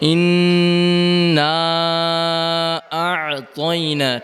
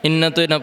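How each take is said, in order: First: The vowel before 'taina' is clearly pronounced. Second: The vowel before 'taina' is dropped. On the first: The speaker calls it right. "কি পড়তে হবে?" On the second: The speaker calls it wrong. "ইন্না তৈনা পড়া যাবে না।"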